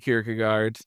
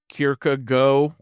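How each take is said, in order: First: The name is said with an English pronunciation. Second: The name is said with a Danish pronunciation. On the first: This is how English speakers usually say it. "but we say Kierkegaard" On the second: This is how it is said in the original language. "in like actual Danish, you'd pronounce it more like Kierkegaard"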